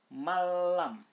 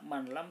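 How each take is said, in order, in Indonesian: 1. Bunyi n menyatu menjadi l yang dobel, tanpa dengung. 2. Bunyi n dilafalkan terpisah sebelum l. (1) "tapi harus dibaca malam, tanpa dengung tapi harus tasdid" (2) "ini tidak boleh dibaca man lam"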